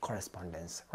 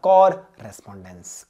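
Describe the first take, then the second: First: Said in the usual way. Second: COR held long and loud in "correspondence"; "correspondence" in two parts, loud slow COR first; split for memorising. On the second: Shown as a demonstration. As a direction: break "correspondence" after a drawn-out, punched COR. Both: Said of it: "किसको कैसे याद रखना है".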